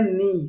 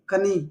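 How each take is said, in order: First: The word begins with an n sound. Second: The word begins with a k sound. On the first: The speaker calls it right. "हम इसको ऐसे पढ़ते हैं नी" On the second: The speaker calls it wrong. "हम इसको ऐसे नहीं पढ़ते कनी कनी"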